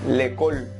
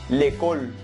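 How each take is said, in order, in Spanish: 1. La vocal del artículo se omite y se une a école. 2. La vocal del artículo se omite y se une a école.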